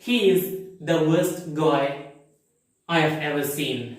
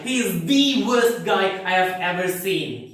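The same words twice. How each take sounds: First: It is said in a calm, normal tone. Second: It is said in an angry, emphatic tone.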